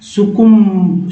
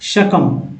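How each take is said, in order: First: It starts with su and ends with b. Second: It starts with sa and ends with m. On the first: The speaker calls it wrong. "कोई अलग अलग लोग अलग अलग तरह से इसको पढ़ सकते हैं" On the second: The speaker calls it right. "शकम क्या पढ़ेंगे"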